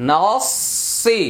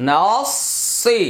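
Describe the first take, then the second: Both takes have the same delivery.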